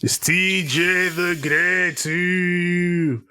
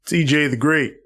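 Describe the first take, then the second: First: Slow, high grand introduction; grand announcer. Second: Said in the usual way. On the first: Acted. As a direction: stretch it out like a ring intro.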